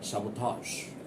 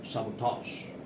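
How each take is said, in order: Both takes have the same delivery.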